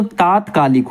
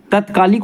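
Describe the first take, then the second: First: तात्कालिक with long first aa, "taat-kaalik"; correct pronunciation. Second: तत्कालिक with a short first a, "tat-kaalik"; wrong pronunciation. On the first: Teacher giving students the right word, long-aa तात्कालिक. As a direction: stretch the opening vowel of तात्कालिक. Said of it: "तात्कालिक होता है". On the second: Teacher showing students the faulty word, short-vowel तत्कालिक. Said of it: "तत्कालिक नहीं होता". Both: Shown as a demonstration.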